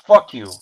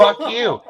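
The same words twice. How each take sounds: First: Loud retold curse; lightly acted angry retort; pissed off. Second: High mock retort; hammed-up comeback; taunting comeback. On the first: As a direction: curse like the angry scam caller. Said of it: "it pissed him off". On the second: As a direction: throw the insult back in a high voice. Throws the caller's insult back.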